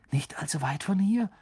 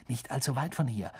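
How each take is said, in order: First: Gehauchtes, hohes Echo als Frage; vielsagendes Nachfragen. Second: Gedämpft aufgeregte Mitteilung; aufgeregt. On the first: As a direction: bedeutungsvoll wiederholen, halb geflüstert. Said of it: "wiederholte Ron und blickte Harry vielsagend an". (vielsagend fragend) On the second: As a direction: leise eine Neuigkeit weitergeben. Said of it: "sagte Seamus aufgeregt". (leicht aufgeregt, gedämpft) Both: A narrator's reading.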